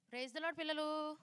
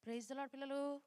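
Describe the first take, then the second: First: Slow, coaxing call to the class; slower, drawn-out greeting. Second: Said in the usual way. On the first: Shown as a demonstration. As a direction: Praise the Lord పిల్లలు stretched slow and a bit higher. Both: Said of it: "నాకు వినిపించట్లే అసలు".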